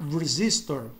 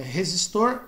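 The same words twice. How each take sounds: First: Resistor with American R, stress on ZIS; English pronunciation. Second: Resistor with H-like first R, stressed at the end; Portuguese pronunciation. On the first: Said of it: "no inglês americano eles pronunciam como R". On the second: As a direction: say resistor the Brazilian way. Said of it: "por isso que fica". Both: Shown as a demonstration.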